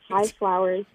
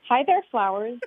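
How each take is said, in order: First: It is said with little enthusiasm. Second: It is said with lots of enthusiasm.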